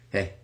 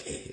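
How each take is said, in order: First: Real calm. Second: A mock attention-getting hey; counter-example greeting. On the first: Retold or imitated. Speaker imitating the voice he heard in his ear, real calm. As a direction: imitate a calm, friendly hey. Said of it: "just real calmly". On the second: Speaker demonstrating what the voice wasn't like, mock attention-getting hey. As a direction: show how the voice didn't say it. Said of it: "It wasn't like".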